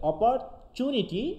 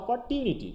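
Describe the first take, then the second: First: The middle consonant sounds like 'ch'. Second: The middle consonant sounds like 't'. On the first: "UK বলতে হচ্ছে চ" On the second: "এরা আবার চু বলে না, টু বলে"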